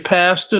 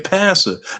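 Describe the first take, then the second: First: The word is said in a plain, ordinary way. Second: The word is said so it sounds like 'master'. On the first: "They don't say pastor" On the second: "they say pastor. Don't pastor sound a lot like master?"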